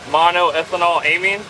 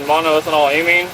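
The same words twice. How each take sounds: First: The term is said slowly and more deliberately. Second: The term is said at normal conversational speed.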